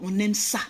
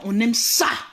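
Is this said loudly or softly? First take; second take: softly; loudly. First: It is said quietly, in a soft voice. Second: It is said at a normal, loud volume.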